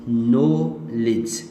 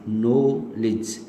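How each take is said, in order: No difference in how they are said.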